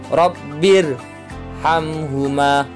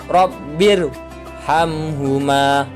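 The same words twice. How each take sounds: Both takes have the same delivery.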